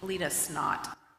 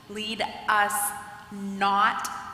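First: The words run together, sounding like 'snot'. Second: Each word is clearly separated and articulated. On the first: The speaker calls it wrong. "if you don't articulate it, you know what it sounds like?" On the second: The speaker calls it right. "I am very clear to articulate"

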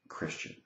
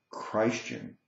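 First: The first syllable does not sound like Christ. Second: The first syllable sounds like the word Christ.

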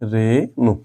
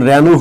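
First: The first vowel is a plain, closed 'e'. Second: The first vowel is an open 'ae' sound. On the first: The speaker calls it right. "উকার এর মতোই উচ্চারণ হবে, তাহলে এটার উচ্চারণ হবে রে নু" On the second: The speaker calls it wrong. "এটা কিন্তু রেনু হবে না"

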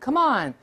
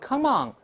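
First: The word on ends in a front n sound. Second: The word on ends in a back ng sound. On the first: The speaker calls it right. "舌根不能动" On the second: The speaker calls it wrong. "就不能读come on"

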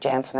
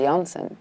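First: The surname is said with an Americanized pronunciation. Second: The surname is said with its original pronunciation. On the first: It is the version used in America. "Because I'm in America, I just say Janssen at this point" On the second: It is the true pronunciation of the name. "today's a new day. I'm Famke Janssen"

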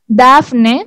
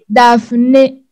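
First: The name is said with Spanish pronunciation. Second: The name is said with French pronunciation. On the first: "En español decimos Daphné" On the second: "Y en francés es Daphné"

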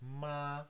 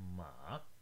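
First: The pitch stays high and level throughout. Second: The pitch dips low, then rises again. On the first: "the first one starts high and goes high all the way" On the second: "The third tone has a little dip"

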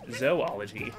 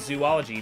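First: The first syllable sounds like zoh, not zoo. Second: The first syllable sounds like the word zoo. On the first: The speaker calls it right. "It's pronounced zoology" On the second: The speaker calls it wrong. "a lot of people say zoology because they see the word zoo in it"

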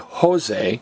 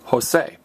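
First: The stress falls on the first syllable. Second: The stress falls on the second syllable. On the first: The speaker calls it wrong. "don't say Jose, don't stress the next to last vowel" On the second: The speaker calls it right. "stress me, say Jose"

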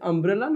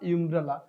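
First: The word begins with an 'uh' vowel. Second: The word begins with an 'ih' vowel. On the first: The speaker calls it right. "Your এটা vowel sound হচ্ছে আ" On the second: The speaker calls it wrong. "Not ইমব্রেলা"

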